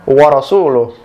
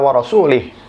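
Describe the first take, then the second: First: The last word ends with a 'u' vowel. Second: The last word ends with an 'i' vowel. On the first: God and his messenger are free of the idolaters. The speaker calls it right. "yang benar adalah" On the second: God is free of the idolaters and of his messenger. The speaker calls it wrong. "memberikan harokat kasroh dalam kata Rasul"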